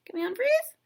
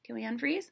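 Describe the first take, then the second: First: Unfreeze asked with a big high rise; playful high question. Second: Said in the usual way. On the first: Real, not acted. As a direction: sing the question up high, teasing. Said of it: "repeated playfully". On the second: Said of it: "repeated with higher pitch".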